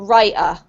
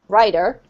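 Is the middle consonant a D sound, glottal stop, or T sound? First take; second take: glottal stop; D sound. First: The middle consonant is a glottal stop. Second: The middle consonant sounds like a D. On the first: "what we call a glottal stop, ... you'll probably say butter or writer" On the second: "another example would be, for example, this rider or rider, same"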